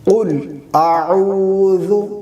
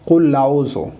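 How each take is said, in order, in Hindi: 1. L के बाद कोई स्वर नहीं होता। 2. L के बाद एक 'a' स्वर जोड़ा जाता है।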